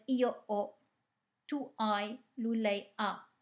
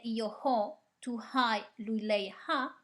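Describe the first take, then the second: First: Io ho, tu hai, lui, lei ha with no H sound, ho as o, hai as ai, ha as a; silent H. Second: Io ho, tu hai, lui, lei ha with a breathy H sounded before ho, hai, ha; mock-wrong Italian with an audible H on ho, hai, ha; wrong aspirated H. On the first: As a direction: drop the H entirely in ho, hai, ha. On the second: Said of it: "So you won't say". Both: Shown as a demonstration.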